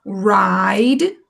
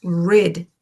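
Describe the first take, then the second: First: Teacher contrasting ride with rid; with silent E. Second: Rid with a short i; teacher contrasting rid with ride; without silent E. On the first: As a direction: ride with a long i, like raid. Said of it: "Olha a diferença". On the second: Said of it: "sem o silent E". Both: Shown as a demonstration.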